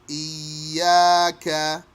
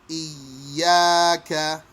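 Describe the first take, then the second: The two takes are said the same way.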